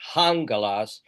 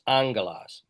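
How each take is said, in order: First: The word begins with a breathy h sound. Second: The word begins directly with a vowel. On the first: The speaker calls it wrong. "It's not hangelos" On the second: The speaker calls it right. "the breathing there is unaspirated"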